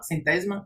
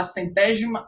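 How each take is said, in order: First: "centésima" in full, "cen-TÉ-zi-ma" with a z sound; retry "centésima" with all four syllables, questioning; second-try pronunciation. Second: "centésima" slurred, middle vowel dropped to "cen-TÉJ-ma"; unsure pronunciation. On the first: Presenter retrying the contest word, "centésima" carefully as "cen-TÉ-zi-ma". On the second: Presenter unsure of the contest word, "centésima" as "cen-TÉJ-ma". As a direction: say "centésima" squeezed into three syllables, hushing the s. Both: Real, not acted. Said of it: "eu não sei como é que fala".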